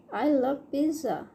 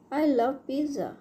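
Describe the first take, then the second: No difference in how they are said.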